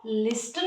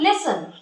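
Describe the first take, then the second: First: The t sound is pronounced in the middle. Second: The t sound is silent in the middle. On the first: The speaker calls it wrong. "हम गलती से भी उसको लिस्टन ना बोल दें" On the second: The speaker calls it right. "टी silent रहेगा"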